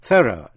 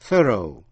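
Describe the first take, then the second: First: "Thorough" said the British way; British pronunciation. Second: "thorough" said the American way with a rising end; American pronunciation. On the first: Teacher contrasts the British thorough for students. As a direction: give "Thorough" its British reading. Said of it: "đọc theo lối Anh". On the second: Teacher contrasts the American thorough for students. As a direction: give "thorough" its American reading. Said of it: "đọc theo lối Mỹ". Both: Shown as a demonstration.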